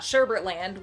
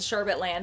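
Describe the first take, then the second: First: The second syllable has an r sound. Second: The second syllable has no r sound. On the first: The speaker calls it wrong. "and not Sherbert Land" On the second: The speaker calls it right. "was called Sherbet Land"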